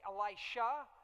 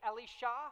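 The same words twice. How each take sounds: First: The name is said the usual English way. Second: The name is said with a Hebrew pronunciation. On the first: "we read it and we say Elisha" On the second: "we go with the Hebrew pronunciation"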